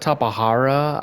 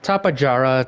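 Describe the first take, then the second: First: The third consonant is an H sound. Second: The third consonant is a J sound. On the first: "I've been calling it Tapahara since I was a kid" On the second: "Tapajara is the right pronunciation"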